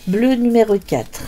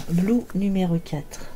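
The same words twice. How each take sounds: First: Said in the usual way. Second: Blue said as the English word "bloo", not the French bleu. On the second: Shown as a demonstration.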